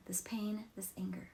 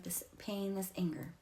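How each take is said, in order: First: Whispered. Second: Said in the usual way. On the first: Shown as a demonstration. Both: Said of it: "you just say something like".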